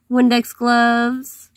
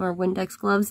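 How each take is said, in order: First: Windex gloves drawn out slowly with stress on Windex; stressed name. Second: Said in the usual way. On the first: Shown as a demonstration. Naming her toy's gloves to viewers, slow stressed Windex. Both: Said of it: "that's what I call them".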